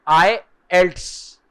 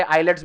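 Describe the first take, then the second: First: आईएल्ट्स as "eye-elts", slowly; correct pronunciation. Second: आईलेट्स said as "eye-lets"; common mispronunciation. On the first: Teacher giving students the actual pronunciation, slow careful आईएल्ट्स. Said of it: "उसका actual pronunciation है". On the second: Teacher showing students how many people wrongly say it, mispronounced आईलेट्स. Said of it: "बहुत लोग उसको यहाँ पे आईलेट्स बोलते हैं". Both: Shown as a demonstration.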